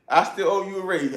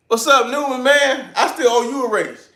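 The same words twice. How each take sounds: First: Said in the usual way. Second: Loud, high greeting across the shop; calling out. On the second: Real, not acted. Greeting his friend Newman in the chat, a loud high call-out. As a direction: hail him loudly, high and bright.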